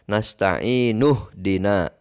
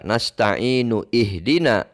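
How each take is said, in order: First: The initial 'i' is dropped, linking into dina. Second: The initial 'i' of ihdina is clearly pronounced. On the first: The speaker calls it right. "tapi dibaca" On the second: The speaker calls it wrong. "Tidak dibaca"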